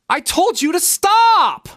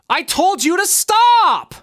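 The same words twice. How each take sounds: No difference in how they are said.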